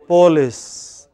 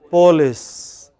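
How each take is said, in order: First: It is said the regional Indian way. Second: The same.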